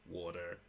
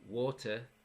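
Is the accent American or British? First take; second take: American; British. First: It is said in an American accent. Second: It is said in a British accent.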